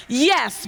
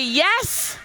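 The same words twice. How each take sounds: First: The second "yes" said louder, with more push; "yes" punched out, startling. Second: Said in the usual way. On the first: Shown as a demonstration. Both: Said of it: "I want the second yes to be louder than the first".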